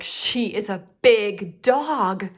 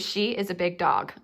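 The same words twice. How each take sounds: First: It is said in an excited, energetic voice. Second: It is said in a calm, plain voice. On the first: It calls for an exclamation point. "that's gonna warrant some exclamation" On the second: It is a simple statement. "I could just say it like that"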